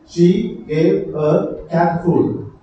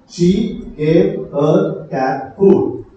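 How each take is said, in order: The two takes are said the same way.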